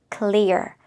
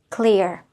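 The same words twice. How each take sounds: The two takes are said the same way.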